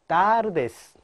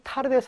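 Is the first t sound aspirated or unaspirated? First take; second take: unaspirated; aspirated. First: The first t is tense and unaspirated, without air. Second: The first t is aspirated, with a puff of air. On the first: The speaker calls it right. "따 발음입니다" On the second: The speaker calls it wrong. "tardes 아니고요"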